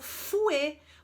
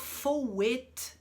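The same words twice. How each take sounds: First: The first vowel sounds like u. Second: The first vowel sounds like o. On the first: The speaker calls it right. "Eu falo fouet, porque o O, U tem, tem som de U" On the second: The speaker calls it wrong. "eu não vou falar fouet"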